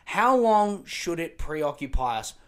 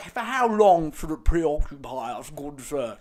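First: Said in the usual way. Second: Lightly voiced pompous toff; mock posh journalist. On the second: Sending up the journalist's fancy question, mock posh. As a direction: ham up the fancy phrasing like a stuffy gentleman. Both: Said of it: "Don't be like".

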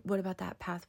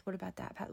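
First: Said in the usual way. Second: Much softer inner-worry repeat; softer worried echo. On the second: Retold or imitated. Sleepless mother replaying her worries at night, much softer.

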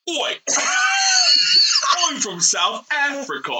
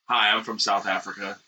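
First: Put-on laughing in a British accent; British voice with a burst of laughter. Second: Put-on South African accent. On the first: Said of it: "my impression of a South African". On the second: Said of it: "my impression of South African".

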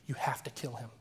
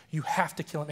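First: Low, hushed imitation of a commanding voice; retold inner voice. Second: Firmer, fuller retold command, not shouted; voice growing louder. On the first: [name] quoting the voice in his ear, hushed. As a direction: keep the sinister order low and soft. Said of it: "voice just starts yelling in my ear". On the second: [name] quoting the voice as it got louder, firmly. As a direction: repeat the order with more volume, mock-insistent. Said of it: "it got so loud".

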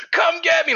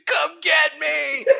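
First: High, loud yell; short shouted dare. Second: Long, high, drawn-out yell; slow defiant shout. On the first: Man yelling at drones, short and loud. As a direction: bark the dare. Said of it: "and he goes". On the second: Survivor yelling at drones, slow and high. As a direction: stretch the dare out loud. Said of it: "the guys like". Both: Retold or imitated.

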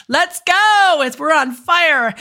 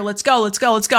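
First: Imitating Debbie. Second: Said in the usual way. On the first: Hearing Debbie's voice, cheering the client on in her voice. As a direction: pump her up like a hyped-up coach. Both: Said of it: "I'm hearing Debbie in my head".

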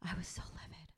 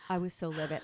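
First: Whispered, no voice. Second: Said in the usual way. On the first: Real, not acted. Telling her friend how angry she was, whispered. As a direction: breathe it out as a whisper. Repeated, first take whispered.

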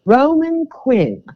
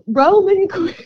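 First: Slow, drawn-out try at a British accent; a weak British accent attempt. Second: High, drawn British accent on the name; British accent, played up. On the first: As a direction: say the name like an F1 commentator, British. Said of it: "let's see if I can do this British". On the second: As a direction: announce it like a British F1 driver. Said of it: "I keep saying it". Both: Shown as a demonstration.

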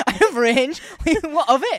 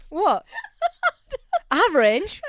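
First: High, louder cheeky boast; mock defiant. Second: High, louder words through laughter; laughing. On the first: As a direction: own it, playfully defiant. Mock boast after yell. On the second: Real, not acted. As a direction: giggle it out, pleased with yourself. Laughing at own yell.

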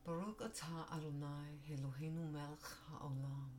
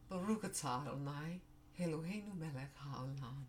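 First: Composed retake. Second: Hebrew blessing through tears, voice breaking; tearful blessing. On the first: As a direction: recover and pray it calmly. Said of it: "I'll say it one more time". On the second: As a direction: pray the words while fighting back crying. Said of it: "I didn't mean to cry over there". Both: Real, not acted.

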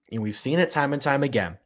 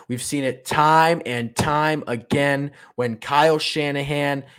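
First: Said in the usual way. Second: Slow, hammered stress on "time and time again"; emphatic repeat. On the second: Real, not acted. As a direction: punch each "time" and stretch it out.

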